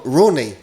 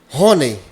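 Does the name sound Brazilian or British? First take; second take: British; Brazilian. First: The name is said with a British English accent. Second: The name is said with a Brazilian Portuguese accent. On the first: It is the original foreign form of the name. "essa pronúncia tão, tão, tão britânica" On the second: It is the more practical, everyday form of the name. "fica mais abrasileirado"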